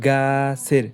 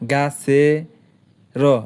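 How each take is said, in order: First: The word is said smoothly as one unit. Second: The word is broken with a gap before the end. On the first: The speaker calls it right. "উচ্চারণ করতে হবে গাছের একসাথে" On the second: The speaker calls it wrong. "এবার করে উচ্চারণ হয় না"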